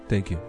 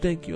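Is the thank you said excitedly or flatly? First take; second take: flatly; excitedly. First: It is said plainly, without excitement. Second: It is said loudly and with excitement. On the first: The giver's small gift is valued little. "just thank you" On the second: The giver's large gift is greatly valued. "you are grateful and you shout"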